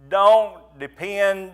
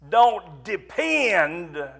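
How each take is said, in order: First: The word depend is said without extra stress. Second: The word depend is said with strong stress.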